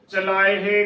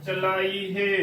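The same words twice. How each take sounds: First: Short 'e' ending in ਚਲਾਏ ਹੈ; correct pronunciation. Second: Long 'ee' in ਚਲਾਈ ਹੈ; wrong pronunciation. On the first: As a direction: say ਚਲਾਏ ਹੈ with 'e', never 'ee'. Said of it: "ਚਲਾਏ ਹੈ ਕਰਨਾ ਹੈ". (ਚਲਾਏ ਹੈ ਵਿੱਚ ਸਿਆਰੀ ਵਾਲੀ 'ਏ') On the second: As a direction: say ਚਲਾਈ with one drawn 'ee' ending. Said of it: "ਇਸ ਦਾ ਉਚਾਰਨ ਕਰ ਦਿੰਦੀਆਂ ਨੇ". (ਚਲਾਈ ਵਿੱਚ ਈੜੀ ਨੂੰ ਬਿਹਾਰੀ ਵਾਲੀ 'ਈ') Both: Shown as a demonstration.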